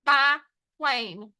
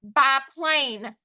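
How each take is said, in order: First: "Biplane" with a pause between bi and plane; split into syllables. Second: Said in the usual way. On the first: Shown as a demonstration. Teacher dictating the next word, split into syllables. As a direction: break "Biplane" into two beats. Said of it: "First syllable". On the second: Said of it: "Next word".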